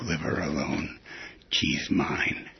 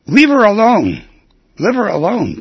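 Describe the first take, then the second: First: Punchline replayed low and quiet, trailing into a whisper; soft repeat. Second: High, loud little-dog yell of ownership; yappy Chihuahua shout. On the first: Host quietly repeating the joke's punchline, hushed and soft. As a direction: murmur the tag line to yourself. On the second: Acted. Chihuahua shouting at the rival dogs, loud and possessive. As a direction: bark it out like a tiny dog guarding his girl. Tiny Chihuahua claims the female.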